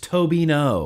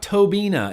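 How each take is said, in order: First: The name ends with an 'oh' sound. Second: The name ends with an 'ah' sound. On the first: The speaker calls it right. "it's Tobino" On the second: The speaker calls it wrong. "It's not Tobina"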